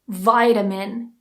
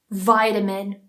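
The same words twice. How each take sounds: First: It is spoken in an American English accent. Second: The same.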